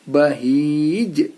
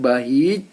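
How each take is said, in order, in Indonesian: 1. Konsonan terakhir berakhir dengan pantulan gema. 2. Konsonan terakhir berhenti tanpa pantulan gema. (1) "tapi bahij" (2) "bukan bahij"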